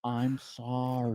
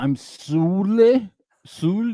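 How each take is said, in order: First: Slow, softer "sorry", sounded out as SAR-ee; prompting correct pronunciation. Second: "Sule" stretched slowly as SOO-lay, higher; mangled pronunciation. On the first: She feeds him lines, slow soft prompting pronunciation. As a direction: coach "sorry" quietly, drawing out each syllable. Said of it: "And she's like". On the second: Being fed his lines, he slowly mangles it, higher. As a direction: botch sorry as a long, questioning "Sule". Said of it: "he forgot how to say". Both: Pretend.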